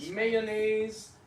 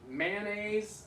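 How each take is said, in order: First: The word is said with three syllables. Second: The word is said with two syllables.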